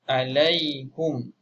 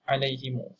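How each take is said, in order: First: The h takes a u vowel; m ends it. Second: The h takes an i vowel; u follows m. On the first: "baris hadapan huruf ha" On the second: "silah mimul jama'"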